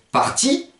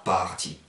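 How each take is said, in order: First: Parti stressed on TI; accent final. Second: Parti stressed on a long PAR; accent mal placé. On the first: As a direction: lean on the end: parTI. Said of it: "il sera occiton". (« parti » accentué sur TI) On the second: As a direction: stretch PAR, drop TI in parti. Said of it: "et non pas parti". (« parti » accentué sur PAR, allongé) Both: Shown as a demonstration.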